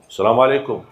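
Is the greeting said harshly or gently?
harshly. It is said in a harsh, forceful way.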